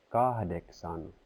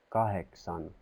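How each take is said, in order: The two takes are said the same way.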